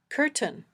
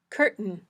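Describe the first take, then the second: First: The t is released with a puff of air. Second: The t is a catch in the throat. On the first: "a puffy t" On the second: "this glottal stop"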